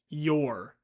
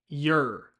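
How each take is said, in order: First: The word has three parts: y, o, er. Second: The word has two parts: y and er. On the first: "pronounced your with three parts: y, o, er" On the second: "shorten this word so that it just has two parts: y and er"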